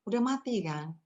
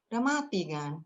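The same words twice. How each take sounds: The two takes are said the same way.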